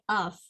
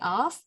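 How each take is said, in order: First: The word is said low and unstressed. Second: The word is said high and stressed. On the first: The speaker calls it right. "we say of" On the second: The speaker calls it wrong. "we don't say of or anything else"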